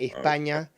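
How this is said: The s is said as a th sound. "hablando así como un uh, gallego de eh, España"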